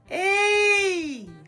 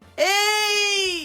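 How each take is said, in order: First: The voice is clear and energetic without strain. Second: The voice is pushed and strained like shouting.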